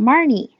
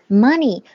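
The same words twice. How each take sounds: First: The word has an r-colored sound. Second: The word has no r-colored sound. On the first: The speaker calls it wrong. "很多同学会发成money" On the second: The speaker calls it right. "尤其没有儿音"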